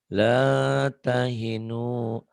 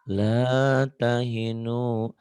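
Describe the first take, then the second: The two takes are said the same way.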